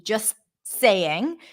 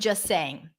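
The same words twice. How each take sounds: First: The T in 'just' is briefly held. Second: The T in 'just' is left out. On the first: "so I pronounce the T, it's like a held T" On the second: "I can drop the T and just connect the two the two words together without the T"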